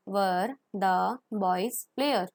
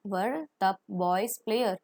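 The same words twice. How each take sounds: First: Even slower repeat; slow model question. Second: Slow model question. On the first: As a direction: drag it out for the class. (और भी धीरे दोहराना) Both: Shown as a demonstration. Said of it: "model question".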